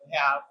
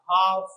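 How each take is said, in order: First: It is said with an American accent. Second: It is said with a British accent.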